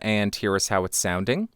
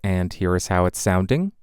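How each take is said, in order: First: The voice is a few inches away, less boomy. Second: The voice is very close, with boomy bass. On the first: "about six inches off of the microphone with it pointed at the corner of my mouth" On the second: "I am right on top of the microphone to exaggerate the proximity effect"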